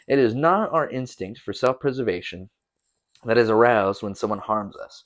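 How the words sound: It is read with statement intonation.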